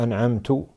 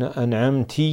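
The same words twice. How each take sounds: First: "أنعمت" ending in -tu, an'amtu; damma on ta. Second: "أنعمت" ending in -ti, an'amti; kasra on ta. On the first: Sheikh gives another invalidating misreading, "أنعمت" said an'amtu. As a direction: say "أنعمت" with a u vowel on the final t. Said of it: "أو". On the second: Sheikh shows a meaning-changing misreading, "أنعمت" said an'amti. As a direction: say "أنعمت" with an i vowel on the final t. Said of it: "بالكسر، كسر التاء". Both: Shown as a demonstration.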